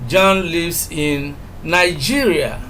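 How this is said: The word Nigeria carries the strongest stress. He lives in this country, not another. "if we emphasize Nigeria"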